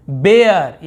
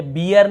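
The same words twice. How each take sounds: First: बेयर with an "ay" vowel, drawn out; stretched model reading of बेयर, "ay" not "ee"; corrected pronunciation. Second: बियर with an "ee" vowel; quick counter-example बियर, "ee" in place of "ay"; mistaken reading. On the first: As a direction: say बेयर as "BAY-er", loud and clear. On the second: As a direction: say बियर as "BEE-er". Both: Shown as a demonstration. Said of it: "ये बियर नहीं पढ़ रहे हैं".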